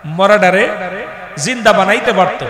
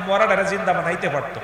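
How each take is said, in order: First: মরাডারে জিন্দা বানাইতে পারত said louder, each word punched; louder emphatic restatement; emphatic repeat. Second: Said in the usual way. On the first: Acted. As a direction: hammer মরাডারে and জিন্দা home to the crowd.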